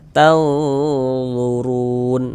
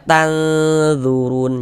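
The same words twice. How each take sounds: First: The middle consonant sounds heavy and thick. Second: The middle consonant sounds light, like plain dh. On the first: The speaker calls it right. "tapi dibaca tanzurun" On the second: The speaker calls it wrong. "jangan dibaca tanzurun, jangan salah. Nanti kalau tanzurun ke huruf dzal jadinya"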